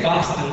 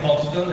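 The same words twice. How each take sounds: First: The r sound is dropped, in a Boston accent. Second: The r sound is pronounced, in an Italian accent. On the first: The speaker has adapted to the local accent. "I can drop the R. I can say Boston" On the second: This is how the speaker talked a year ago. "instead of Boston, as I did before"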